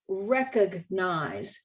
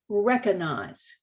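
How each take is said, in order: First: The G sound in the middle is kept. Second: The G sound in the middle is dropped. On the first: The speaker calls it right. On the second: The speaker calls it wrong.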